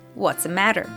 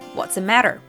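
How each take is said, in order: First: The words run together with a reduced 'the'. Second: The same.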